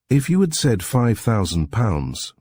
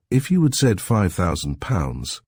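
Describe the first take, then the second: First: Slower, higher, each word weighed; deliberate restating. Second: Said in the usual way. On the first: A narrator's reading. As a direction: repeat it slowly and pointedly. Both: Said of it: "Mister Reader went on".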